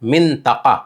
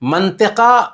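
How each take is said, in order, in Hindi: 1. पहला स्वर i है, दूसरा a। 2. पहला स्वर a है, दूसरा i। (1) "असल में फसीह और सही अरबी के हिसाब से ओ मिंतका है" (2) "मंतिका गलत है। आम गुफ्तगू में मंतिका बोल देते हैं"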